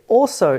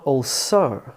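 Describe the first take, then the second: First: "also" stressed as AL-so; front-stressed "also", one word; first-syllable stress. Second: "also" split into "all SO"; slow, weight on SO in "also"; misplaced stress on the second syllable of "also"; two separate words. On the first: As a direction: lean on AL in "also". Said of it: "Of course you say also". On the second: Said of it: "sounds like two different words". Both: Shown as a demonstration.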